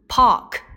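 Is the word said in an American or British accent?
British. It is said with no r sound. "同样它们的英式发音"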